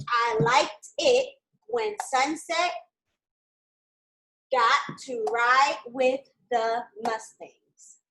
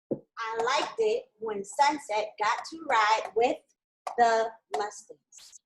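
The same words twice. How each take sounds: First: "I liked it when Sunset got to ride with the Mustangs" said very slowly, word by word; slow dictation. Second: "I liked it when Sunset got to ride with the Mustangs" said slowly, higher at the start; slow dictation. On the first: Teacher dictating the sentence to students, very slow. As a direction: dictate it slowly so they can write. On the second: Teacher rereading the sentence for students, slow. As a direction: read it out again slowly. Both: Shown as a demonstration. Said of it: "The sentence is supposed to say".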